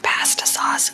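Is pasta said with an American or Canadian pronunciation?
Canadian. Pasta is said with a Canadian pronunciation. "asked for pasta sauce"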